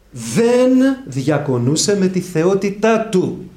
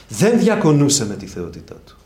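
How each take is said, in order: First: Slow, high, loud, with Δεν hammered; stress on Δεν. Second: Δεν stressed at a normal pace. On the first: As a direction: lean hard on the Δεν, drawn out. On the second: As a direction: repeat it firmly, Δεν first. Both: Shown as a demonstration. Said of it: "προσέξτε πάρα πολύ".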